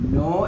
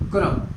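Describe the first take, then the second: First: The word starts directly with the n sound. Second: The word starts with an added k sound. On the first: The speaker calls it right. "നോ എന്നാണ്" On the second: The speaker calls it wrong. "ഐക്കനോ എന്ന് വായിക്കും. ... അത് കറക്റ്റാണോ? അല്ല"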